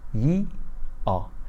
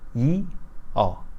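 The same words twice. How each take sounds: The two takes are said the same way.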